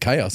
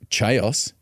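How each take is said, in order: First: The word begins with a 'k' sound. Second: The word begins with a 'ch' sound. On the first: The speaker calls it right. "you pronounce it chaos" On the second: The speaker calls it wrong. "you don't pronounce it chaos"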